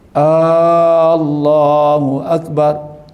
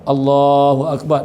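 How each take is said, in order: First: The first vowel of Allah is drawn out long. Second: The first vowel of Allah is short. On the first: It asks whether God is great. The speaker calls it wrong. "Kita pi kata Allahu akbar. Adakah Allah tu besar?" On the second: It states that God is the greatest. The speaker calls it right. "hak asal tu elok"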